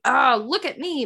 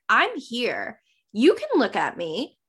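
First: Lightly mocked attention-seeking; mild showing off. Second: Understated, at ease; comfortable confidence. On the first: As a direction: play a mild show-off. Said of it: "Not like". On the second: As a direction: simply own the space. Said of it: "you have to be comfortable". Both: Shown as a demonstration.

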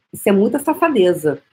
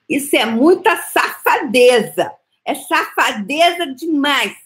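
First: Said in the usual way. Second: Mock-scandalised, slow and emphatic; emphatic slow scold. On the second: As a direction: lean hard on "muita", dragging out "safadeza". Repeated scolding line, emphatic take.

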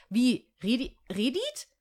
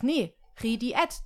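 First: Stranger's guess "Redit", clipped to two syllables; mispronounced name. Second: "Rediet" said slowly and carefully, the correct way; correct pronunciation. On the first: Retold or imitated. Stranger asking back, mangling her name as "Redit". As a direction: say "Redi-, Redit?" as a questioning wrong attempt. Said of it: "Das I ist nicht angesprochen". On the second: Shown as a demonstration. Correcting the stranger's attempt at her name, slow and careful. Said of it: "sondern es ist einfach Rediet".

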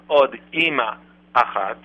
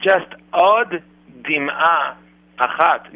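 First: Od Ima, with no d before "Ima"; the mistaken version of the phrase; wrong pronunciation. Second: Od Dim'a, slow, the d held and carried into "Dim'a"; careful slow Hebrew phrase; correct pronunciation. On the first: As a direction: let "Od" run straight into "Ima". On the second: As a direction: stretch "Od Dim'a" so the double d is heard. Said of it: "not Od Ima Achat". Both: Shown as a demonstration.

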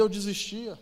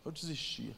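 First: Said in the usual way. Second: "Eu desistia" repeated much softer with a falling close; quiet echo. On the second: Shown as a demonstration. Repeating his confession softly to himself. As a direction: let "Eu desistia" drop to a hush.

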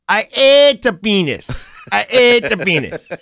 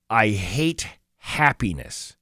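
First: Jamaican accent. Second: Said in the usual way. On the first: Shown as a demonstration. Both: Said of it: "say it with a, like, a Jamaican voice".

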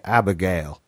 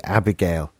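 First: Southern accent. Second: "Abigail" in an English accent. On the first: The only way they could hear the name, southern accent. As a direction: put on a southern US voice for Abigail. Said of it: "in that, in that southern voice". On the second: Struggling to say a character's name, English accent. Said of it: "came out in my English accent". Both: Shown as a demonstration.

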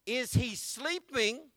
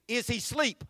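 First: Careful "Is he sleeping?" with full -ing; slow, correct "sleeping"; proper grammar. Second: "Is he sleep?" with no -ing ending; casual "sleep" for sleeping; dialect version. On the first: Preacher showing the proper way to say it. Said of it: "That would be proper". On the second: Preacher mimicking how some folks say it. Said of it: "Some other people might say". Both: Shown as a demonstration.

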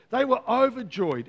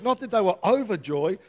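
First: "overjoyed" stressed hard, falling at the end; emphatic overjoyed. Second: Said in the usual way. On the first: Shown as a demonstration. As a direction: lean into "overjoyed" as if spilling over. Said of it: "It was spilling over". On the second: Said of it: "they were overjoyed. It was spilling over".

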